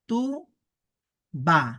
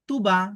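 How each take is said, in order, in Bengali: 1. দুটি সিলেবল বিরতি দিয়ে আলাদাভাবে বলা হয়। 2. দুটি সিলেবল বিরতি ছাড়া একসাথে জুড়ে বলা হয়। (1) "আলাদা আলাদা উচ্চারণ করব" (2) "একসাথে উচ্চারণ করব"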